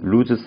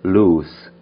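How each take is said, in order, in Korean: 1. 한국 외래어처럼 발음했어요. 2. 영어 발음으로 했어요. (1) "loose socks나 이런 것처럼 loose라고 하는 의미로 좀 발음을 하기도" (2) "그거보다는 loose, loose라는 발음이 맞고요"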